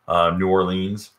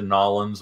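First: The name is said slowly with every syllable distinct. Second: The name is run together into two quick syllables.

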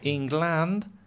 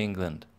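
First: The second syllable has a full vowel. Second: The second syllable is reduced to a schwa. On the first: The speaker calls it wrong. "You don't say England" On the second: The speaker calls it right. "you say England"

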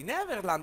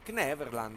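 First: The word starts without a K sound. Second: The word starts with a K sound. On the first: "Neverland o Kneverland?" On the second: "Si pronuncia la K. Io la pronuncio"

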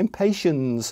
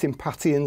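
First: It is said like the word 'impatient'. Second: It is not said like the word 'impatient'. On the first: The speaker calls it right. "how it looks, impatient. It comes from the word impatient" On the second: The speaker calls it wrong. "I've been pronouncing it Impatiens all my life"

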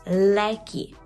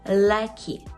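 Both takes have the same delivery.

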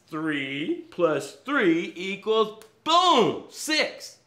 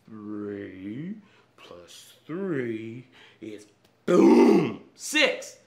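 First: It is said in a normal voice. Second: It is said in a put-on slow-motion voice.

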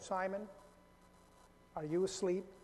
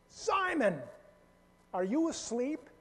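First: It sounds calm and gentle. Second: It sounds incredulous and disbelieving.

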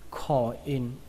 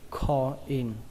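Both takes have the same delivery.

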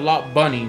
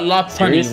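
First: The middle consonant is a B sound. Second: The middle consonant is a P sound. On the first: This is how the name should be said. The speaker calls it right. "they should call it Lop Bunny with a B" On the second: This is how most people say the name. The speaker calls it wrong. "they call it Lopunny with a P"

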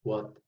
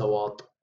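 First: The word is said lightly with a short vowel. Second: The word is said heavily with a long vowel. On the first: The speaker calls it right. "what خفيفة" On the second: The speaker calls it wrong. "وليس واط"

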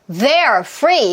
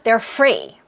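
First: The word they're is said with full force. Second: The word they're is weak and relaxed. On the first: The speaker calls it wrong. "이게 아니라" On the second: The speaker calls it right. "힘 빼셔야 돼요"

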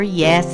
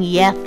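First: The s sound is crisp and clear. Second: The s sound is lisped, like a th. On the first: The speaker calls it right. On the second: The speaker calls it wrong. "He didn't want to keep saying"

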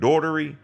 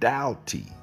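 First: The name has an added r sound. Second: The name has no r sound. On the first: The speaker calls it wrong. "They put E's and R's and all kind of other stuff in my name" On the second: The speaker calls it right. "It's Doughty. That's how we pronounce my name"

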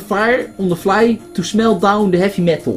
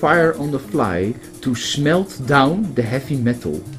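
First: The phrase is read with Dutch pronunciation. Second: The phrase is read with English pronunciation.

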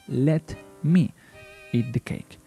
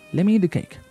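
First: Let and me are said as two clear words. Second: Let and me blend into one word, lemme.

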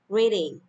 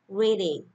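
The two takes are said the same way.

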